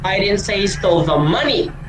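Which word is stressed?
money. The word 'money' is stressed. Something other than money was stolen. "Di ko sinasabi na pera yung ninakaw niya"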